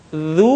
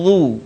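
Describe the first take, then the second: First: Light Zu, tongue flat; thin Zu. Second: Heavy Zu with back of tongue raised; thickened Zu. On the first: Teacher shows the light letter first, thin Zu. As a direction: keep Zu thin, not thickened. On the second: Teacher shows the heavy letter next, thickened Zu. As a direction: thicken Zu fully. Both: Shown as a demonstration. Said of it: "kemudian tebalkan".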